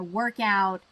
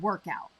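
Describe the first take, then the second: First: Both parts carry strong stress. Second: Only the first part carries strong stress. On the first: It is a verb meaning to resolve. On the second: It is a noun meaning a session of exercise.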